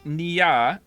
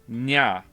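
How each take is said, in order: First: The name is said as two syllables. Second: The name is said as one syllable. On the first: The speaker calls it wrong. "So I'm saying Nia" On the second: The speaker calls it right. "Drop the E sound. ... so it's just Nya"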